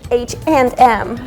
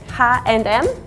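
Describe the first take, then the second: First: The letters are named with English sounds. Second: The letters are named with Polish sounds. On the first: "if you pronounce it like fully English" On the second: "which is like Polish version of H and M"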